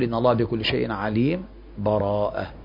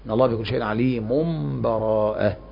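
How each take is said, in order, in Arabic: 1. يأتي قبل الكلمة الأخيرة سكت خفيف بلا نفس. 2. تتصل الكلمة الأخيرة بما قبلها دون أي سكت. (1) "السكت يقول ... من غير نفس" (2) "والوصل"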